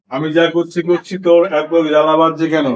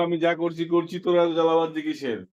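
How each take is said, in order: First: Said in the usual way. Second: Soft quoted film line; quoted dialogue. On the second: Retold or imitated. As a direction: read the line quietly. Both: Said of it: "ওকে dialogue বলে গেল".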